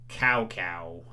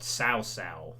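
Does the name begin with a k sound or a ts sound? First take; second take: k sound; ts sound. First: Each syllable starts with a hard k sound. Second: Each syllable starts with a ts sound. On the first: The speaker calls it wrong. "I used to call" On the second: The speaker calls it right. "actually it's pronounced more Cao Cao, you know, with a tss"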